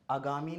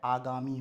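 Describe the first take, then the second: First: आगामी with the first vowel cut to short a; common mispronunciation. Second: आगामी with a long initial aa; correct pronunciation. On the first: Teacher showing the wrong form, आगामी starting on short a. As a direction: say आगामी as "a-gaami". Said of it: "आगामी नहीं होता है". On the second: Teacher correcting, आगामी starting on long aa. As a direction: say आगामी as "aa-gaami". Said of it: "आगामी होता है". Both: Shown as a demonstration.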